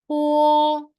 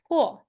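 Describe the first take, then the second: First: It is said with the first tone. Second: It is said with the fourth tone. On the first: "and the first tone" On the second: "Last tone"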